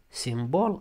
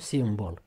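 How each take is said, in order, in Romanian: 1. Accentul este pe a doua silabă. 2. Accentul este pe prima silabă. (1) "accentuat O" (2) "și nu simbol"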